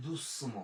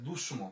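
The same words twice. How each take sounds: First: দুসম with a sharp, held s; correct pronunciation. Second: দুসম with sh in the middle; mistaken spelling pronunciation. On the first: Teacher shows how it is heard, hissed s in দুসম. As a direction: sound the middle of দুসম as "ss". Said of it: "উচ্চারণ শোনা যায়". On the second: Teacher shows what misspelling would give, hushing দুসম. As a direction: turn the s of দুসম into "sh". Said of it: "দন্তাস যদি লিখে উচ্চারণটা হয়ে যাবে". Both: Shown as a demonstration.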